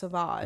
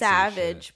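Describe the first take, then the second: First: It is said with a French vowel and ending. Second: It is said like the English word savage. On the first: The speaker calls it right. "but it's pronounced" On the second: The speaker calls it wrong. "it's spelled"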